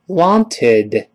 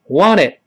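First: The word is said slowly and carefully. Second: The word is said quickly with reduced sounds. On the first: "我们慢慢读wanted" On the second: "快点wanted"

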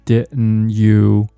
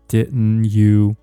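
Both takes have the same delivery.

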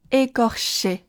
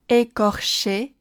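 No difference in how they are said.

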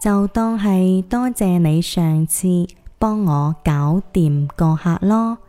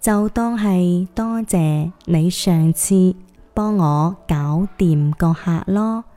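First: It is said a little slower. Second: It is said slower still, in phrases.

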